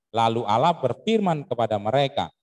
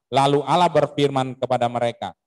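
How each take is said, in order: The two takes are said the same way.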